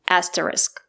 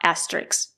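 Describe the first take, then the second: First: The word ends with an sk sound. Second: The word ends with a ks sound. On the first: The speaker calls it right. "The word is pronounced asterisk" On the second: The speaker calls it wrong. "not asterisk"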